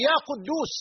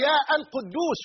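First: يا قدوس joined as "yaa quddoos"; article dropped. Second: يا القدوس with a separate "al" after yaa; wrong article kept. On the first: Teacher giving the correct vocative, smooth يا قدوس without "al". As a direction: go straight from يا into قدوس. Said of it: "وإنما". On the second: Teacher showing what not to say, article sounded in يا القدوس. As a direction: break after يا, then sound "al-quddoos". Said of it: "لا تقول". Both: Shown as a demonstration.

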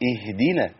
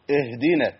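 First: "اهدنا" lower, with falling tune and clean ih; lower, settled "اهدنا"; corrected original form. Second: "اهدنا" as the pupil misread it, pitched level; imitated slip on the first syllable of "اهدنا"; pupil's mistaken way. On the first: Shown as a demonstration. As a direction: model "اهدنا" from a clear short i. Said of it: "هي أصلًا إيه". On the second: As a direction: echo the pupil's faulty opening on "اهدنا". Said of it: "حضرتك قلتها كده".

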